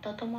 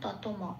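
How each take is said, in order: First: The final m is pronounced fully, with a vowel. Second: The final m is pronounced fully, with a vowel.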